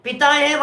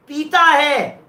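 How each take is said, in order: First: पिता with a short i, "pi-taa"; पिता meaning father, short i. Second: पीता with a long ee, "pee-taa"; पीता meaning drinks, long ee. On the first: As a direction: say पिता with a quick first vowel. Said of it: "माने father है". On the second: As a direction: hold the first vowel of पीता. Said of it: "माने liquor है". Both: Shown as a demonstration.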